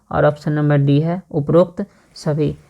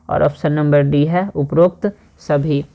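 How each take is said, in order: No difference in how they are said.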